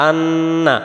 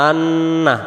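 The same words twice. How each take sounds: The two takes are said the same way.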